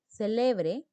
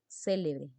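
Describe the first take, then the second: First: The stress is on the second syllable. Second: The stress is on the first syllable. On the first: To celebrate something. "déjale que celebre su fiesta" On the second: Someone famous or important. "Célebre es alguien importante"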